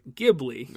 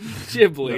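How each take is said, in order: First: Ghibli is pronounced as the Italian word. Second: Ghibli is pronounced as the studio says it. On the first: This is the original source word. "they got it from the Italian word Ghibli" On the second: This is how the studio names itself. "But they pronounce it Ghibli"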